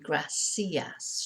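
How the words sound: The 'c' is pronounced like an 's' sound. This is how it is said in South America. "It's always pr- pronounced like an S"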